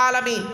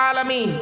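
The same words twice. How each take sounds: The two takes are said the same way.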